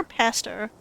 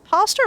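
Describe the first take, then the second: First: "pastor" with a short a, PASS-ter; second option, short a in "pastor"; alternative pronunciation. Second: "pastor" with a long ah, PAH-ster; first option, broad ah in "pastor"; pronunciation check. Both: Shown as a demonstration. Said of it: "How do you say it?".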